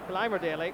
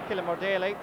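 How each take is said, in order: First: The name's last syllable sounds like 'mer'. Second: The name's last syllable sounds like 'more'. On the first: The speaker calls it right. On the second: The speaker calls it wrong.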